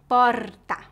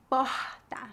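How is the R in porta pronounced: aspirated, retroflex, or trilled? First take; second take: trilled; aspirated. First: The R is a vibrating, trilled sound. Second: The R is a breathy, aspirated sound. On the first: This is how people speak in the city of São Paulo. "Na capital, o R é vibrante" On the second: This is how people speak in Rio de Janeiro. "a pronúncia do R é bem aspirada"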